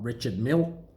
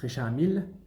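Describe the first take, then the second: First: It is said the English way, final sounds pronounced. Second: It is said the French way, final sounds dropped. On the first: The speaker calls it wrong. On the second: The speaker calls it right. "they don't say the D on the end of that word in French. They don't say the E on the end of Mille"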